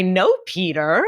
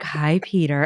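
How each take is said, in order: First: Said in the usual way. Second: Sultry. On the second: Retold or imitated. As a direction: purr the greeting like a flirt. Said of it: "you kinda did, like, a sultry".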